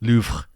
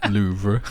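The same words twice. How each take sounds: First: It is said with a French-style pronunciation. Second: It is said with an English-style pronunciation. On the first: The speaker calls it right. "No, it's Louvre" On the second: The speaker calls it wrong. "you just Louvre"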